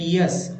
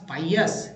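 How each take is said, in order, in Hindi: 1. पहला स्वर 'ee' जैसा सुनाई देता है। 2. पहला स्वर 'eye' जैसा सुनाई देता है। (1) "ई लगा के पियस" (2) "होता है आई"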